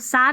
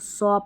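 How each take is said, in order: First: The vowel is an open unrounded 'ah'. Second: The vowel is a rounded 'aw'. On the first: The speaker calls it wrong. "इसको सा नहीं पढ़ेंगे" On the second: The speaker calls it right. "इसको सौ पढ़ेंगे"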